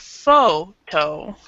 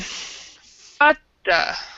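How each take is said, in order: First: It is said with full vowels, like photo. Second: It is said with weak vowels, like fata. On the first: "not necessarily photo" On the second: "It's more like um, fata"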